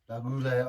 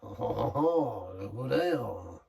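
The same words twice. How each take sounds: First: It is said in a plain English accent. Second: It is said in a put-on French accent.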